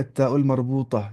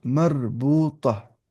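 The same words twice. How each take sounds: First: Said in the usual way. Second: Long-drawn syllables for learners; slow, measured model pronunciation; slow dictation. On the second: Shown as a demonstration. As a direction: stretch each syllable out slowly. Teacher dictates the term slowly.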